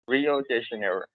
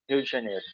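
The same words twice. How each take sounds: First: It is said with an American English accent. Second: It is said with a Brazilian Portuguese accent. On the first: "imitate the the American accent" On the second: "the first time I said it uh in uh in a Brazilian way"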